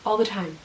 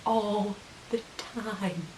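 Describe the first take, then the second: First: Said in the usual way. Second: Very slow, hushed "All the time"; drawn-out emphasis. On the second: Real, not acted. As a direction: stretch out "All the time", much softer. Repeats the phrase for emphasis.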